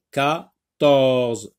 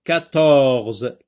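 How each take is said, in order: First: "quatorze" split into qua... torze; syllable by syllable. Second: Said in the usual way. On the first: Shown as a demonstration. Checking word for sound by syllables.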